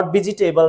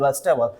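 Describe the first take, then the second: First: Vegetable said as "vi-ji-tay-bal", every syllable sounded; wrong pronunciation. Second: Vegetable shortened to "VES-tay-bal"; corrected pronunciation. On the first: Teacher showing learners the mistake, vegetable as "vi-ji-tay-bal". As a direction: say vegetable with an extra "ji" after "vi". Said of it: "That is not vegetable". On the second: Teacher correcting learners' mistake, vegetable as "ves-tay-bal". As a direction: say vegetable starting "ves", dropping the "ji". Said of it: "that is vegetable". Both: Shown as a demonstration.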